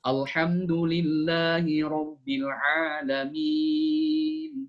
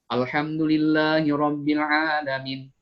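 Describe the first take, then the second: First: The final vowel is drawn out at length. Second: The final vowel is held only briefly. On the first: The speaker calls it right. "Itu harus enam harokat panjangan" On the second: The speaker calls it wrong. "ini nggak boleh dibaca begitu"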